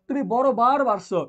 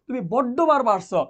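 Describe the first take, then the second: First: The consonant in the second word is single. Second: The consonant in the second word is doubled. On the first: The statement is plain, without extra emphasis. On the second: The word is given extra emphasis.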